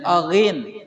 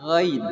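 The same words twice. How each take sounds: First: "aghin" with an extra a sound before the gh; wrong ghin. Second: "ghin" starting straight from the throat, no vowel before it; correct ghin. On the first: Teacher shows students the wrong reading, aghin. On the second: Teacher shows students the correct ghin, clean throat sound. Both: Shown as a demonstration. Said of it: "Jangan aghin, tapi ghin".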